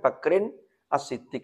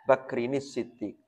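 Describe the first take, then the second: First: The article is said separately before Siddiq. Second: The words run together and the article disappears.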